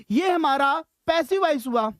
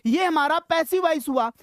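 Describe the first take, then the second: No difference in how they are said.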